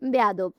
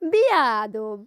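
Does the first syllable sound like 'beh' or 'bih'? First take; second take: beh; bih. First: The first vowel sounds like 'e' in 'bed'. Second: The first vowel sounds like 'i' in 'bit'. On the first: This is how most people say it. "Normally সবাই বেয়াদব কিভাবে বলে?" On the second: This is the speaker's own habitual way of saying it. "আর আমি কিভাবে বলি জানো?"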